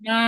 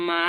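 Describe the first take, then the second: First: মা held level and flat; first tone ma. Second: মা rising upward; second tone ma. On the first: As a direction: keep মা flat and steady. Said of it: "প্রথমটা কি". (সমান সুরে প্রথম টোনের মা) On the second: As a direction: make মা climb at the end. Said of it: "second tone, মা". (উপরে ওঠা সেকেন্ড টোনের মা) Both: Shown as a demonstration.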